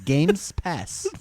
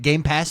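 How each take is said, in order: First: An extra s sound comes before Pass. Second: No extra s sound comes before Pass. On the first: It flows smoothly off the tongue. The speaker calls it right. "My tongue likes the two S's, the three S's. ... That's just smooth" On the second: It feels jarring to say. The speaker calls it wrong. "it's a little like jarring"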